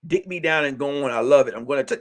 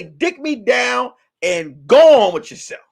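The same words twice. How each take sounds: First: Much lower, softer sultry imitation; mock woman voice. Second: Said in the usual way. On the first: Comic voicing a woman brushing off a man, low and soft. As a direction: purr it low and lazy like her. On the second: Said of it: "hey, say".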